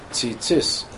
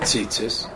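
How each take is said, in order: First: The stress is on the second syllable. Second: The stress is on the first syllable. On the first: The speaker calls it right. "You have to stress the second tzis" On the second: The speaker calls it wrong. "It's not tzitzis"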